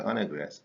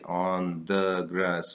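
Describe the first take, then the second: First: The word the is reduced to a weak vowel. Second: The word the is pronounced in full. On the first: The speaker calls it right. "you say on a grass" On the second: The speaker calls it wrong. "you don't say on the grass"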